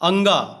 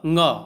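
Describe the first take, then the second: First: It starts with an added vowel before the nasal. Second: It starts directly with the nasal consonant. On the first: The speaker calls it wrong. "गलत उच्चारण" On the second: The speaker calls it right. "सही उच्चारण इसका यही है"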